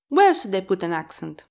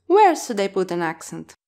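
No difference in how they are said.

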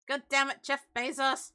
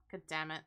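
First: Louder, higher mock outburst at Jeff Bezos; hammed-up curse aimed at Bezos; mock outrage. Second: Said in the usual way. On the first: Annoyed streamer hammily cursing Jeff Bezos, mock outrage. Complaint about ads.

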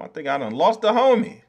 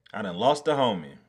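First: High, loud cry of loss; loud dismay. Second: Said in the usual way. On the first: Real, not acted. Streamer fearing he lost the lemon, high loud cry. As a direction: cry it out in alarm.

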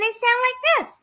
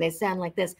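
First: Put-on high kid-type voice. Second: Put-on lower voice; low villain-type voice. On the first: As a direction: pipe up in a high character voice. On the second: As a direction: drop into a lower, softer character voice. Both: Shown as a demonstration. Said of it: "other people go in and they sound like this".

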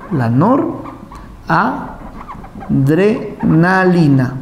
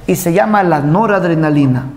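First: "La noradrenalina" stretched very slowly, syllable by syllable; drawn-out term. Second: Said in the usual way. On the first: Shown as a demonstration. Teacher repeating the term very slowly for the class.

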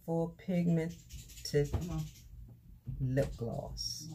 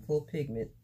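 First: "Full Pigmented" spelled out slowly, syllable by syllable; slow, careful "Full Pigmented"; careful slow reading. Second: "Full Pigment" said quickly, with the final "-ed" dropped; a quick "Full Pigment" without the ending; clipped retry. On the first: Unboxing a gift, reading the product name slowly and carefully. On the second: Stumbling over the product name to viewers, a quick cut-off retry. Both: Real, not acted. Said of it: "I cannot say that word".

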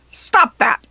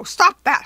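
First: Loud, protesting goblin yell. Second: Loud, high protest amid helpless laughter; tickled goblin protest. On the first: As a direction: yell it in indignation. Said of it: "the goblin yelled". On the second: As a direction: beg it while being tickled. Goblin helpless while being tickled. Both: A narrator's reading.

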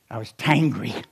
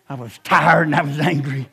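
First: "tangry" said as one word, tired plus angry; blended word tangry. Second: "tired" and "angry" split apart and stressed; spelled out. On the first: Preacher coining "tangry" for the crowd. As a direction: say "tangry" as a single made-up word. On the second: Preacher explaining what tangry means. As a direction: unpack "tired" and "angry" clearly. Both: Shown as a demonstration.

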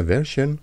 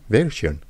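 First: "version" said as "VEH-shon", soft sh; trying out pronunciation. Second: "version" said as "VEL-shyon", with an l; second try at pronunciation. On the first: French YouTuber unsure of English, trying "version" as "VEH-shon". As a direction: try "version" with a plain sh ending. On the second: French YouTuber unsure of English, retrying "version" as "VEL-shyon". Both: Shown as a demonstration. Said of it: "je sais pas comment on prononce ça".

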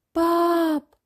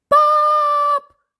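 First: Put-on child calling for dad, high and drawn out; high, sustained call. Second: Very high, loud drawn-out scream for dad; panicked child's scream. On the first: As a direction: call "Pap" on a long, high held note. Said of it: "roept Job". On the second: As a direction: scream "Paap" in alarm, long and high. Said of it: "Gilt Job". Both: A narrator's reading.

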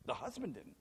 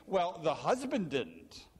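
First: Soft, lower repeat of the point; hushed echo of the husband line; quiet echo. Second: Said in the usual way. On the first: Shown as a demonstration.

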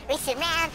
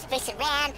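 Both takes have the same delivery.

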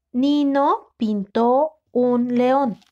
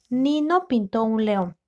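First: Slow, with each word drawn out and distinct; slow dictation. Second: Said in the usual way. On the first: Shown as a demonstration. Teacher dictating the sentence to a student, slowly and clearly. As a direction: read it out slowly so they can write it.

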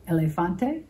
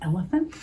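First: Elefante said the Spanish way, eh-leh-FAHN-teh, asking rise; Spanish pronunciation. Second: Elephant said the plain English way, EL-uh-funt; English word. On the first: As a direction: sound out Elefante in Spanish for the kids. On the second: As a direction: give Elephant as the English match. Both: Shown as a demonstration. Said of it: "Does that sound like an English animal to you?".

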